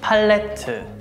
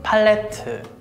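First: It is said with Korean pronunciation. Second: The same.

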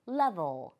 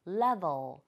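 First: It is said with a native English pronunciation. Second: It is said with a native English pronunciation.

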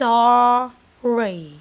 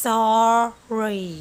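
Both takes have the same delivery.

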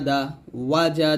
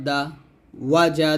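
The two takes are said the same way.

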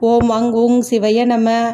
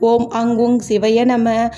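The two takes are said the same way.

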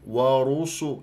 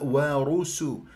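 First: The s is heavy, like an emphatic s. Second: The s is light and clearly hissed. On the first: The speaker calls it wrong. "تجيب لي ورسو ورسو" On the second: The speaker calls it right. "لا"

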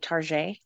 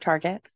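First: The name is given a French-style, fancy pronunciation. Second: The name is given its plain, ordinary pronunciation. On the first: The store is made to sound upscale. "it sounds fancy, like you say Target" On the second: The store is named in the ordinary way. "instead of Target"

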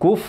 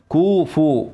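First: The f is said with no vowel after it. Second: The f is followed by an u vowel. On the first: The speaker calls it wrong. "كف لا" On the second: The speaker calls it right. "ضم الفاء"

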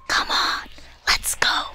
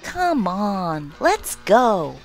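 First: It is said softly, in a hushed voice. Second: It is said in a whining, childlike voice. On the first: "sotto voce" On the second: "with the childlike whine"

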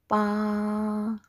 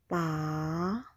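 First: The pitch stays high and level. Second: The pitch falls and then rises. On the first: "The first tone is very high level" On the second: "The second tone is the falling rising tone"

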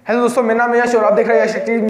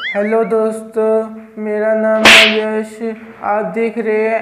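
First: It is said very fast. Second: It is said very slowly.

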